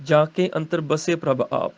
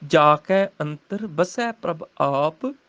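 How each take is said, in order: First: ਕੇ and ਬਸੇ with a close 'e', read quickly; common misreading. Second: ਕੈ and ਬਸੈ with open, drawn-out 'ai'; corrected recitation. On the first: Teacher quoting the common misreading, ਕੇ and ਬਸੇ said with close 'e'. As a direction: run the line through with 'ke' and 'base'. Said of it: "ਗਲਤ ਹੋ ਗਿਆ, ਤਿੰਨ ਅੱਖਰ ਗਲਤ". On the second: Teacher modelling the corrected line, slow open 'ai' in ਕੈ and ਬਸੈ. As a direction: read slowly, opening ਕੈ and ਬਸੈ to 'ai'. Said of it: "ਸੱਸੇ ਨੂੰ ਦਲਾਵਾਂ ਹੈਗੀਆਂ". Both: Shown as a demonstration.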